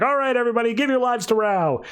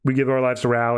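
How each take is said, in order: First: High-pitched, urgent rallying call; freaking out. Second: Obedient group response. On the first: Prophets urging their followers on, frantic. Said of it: "the prophets start freaking out". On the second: Followers all answering the prophets, dutiful and subdued. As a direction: recite it dutifully, without excitement. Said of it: "And then they all say". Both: Retold or imitated.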